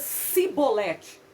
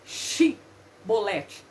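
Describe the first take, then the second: First: The word begins with a plain s sound. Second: The word begins with a sh sound. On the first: The speaker is an Ephraimite. The speaker calls it wrong. "saía Sibolete" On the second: The speaker is a Gileadite. The speaker calls it right. "o som de X"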